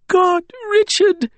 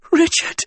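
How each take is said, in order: First: Very high, slow seething lament. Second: High, choked-out call; involuntary croak, pitched very high; croaked cry. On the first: Wren wipes angrily at her eyes, seething. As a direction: drag the words out in tearful anger. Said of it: "but seething now". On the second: Wren sees her cousin convulsing in the water, croaked cry. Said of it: "Wren croaked". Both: A narrator's reading.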